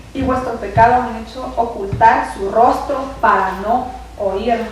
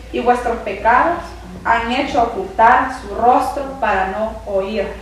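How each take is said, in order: The two takes are said the same way.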